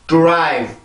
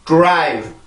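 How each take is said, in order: No difference in how they are said.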